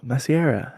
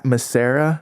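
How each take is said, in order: First: "Masiera" said as mah-see-AIR-uh; alternative pronunciation. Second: "Massera" said as muh-SAIR-uh; common pronunciation. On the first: Stranger giving his surname, "Masiera" with an "ee" glide. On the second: Storyteller checking a surname, "Massera" as muh-SAIR-uh. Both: Retold or imitated. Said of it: "some people say it like that".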